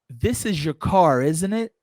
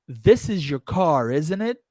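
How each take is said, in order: The two takes are said the same way.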